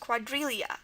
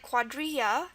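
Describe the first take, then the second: First: The middle consonant sounds like an L. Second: The middle consonant sounds like a Y.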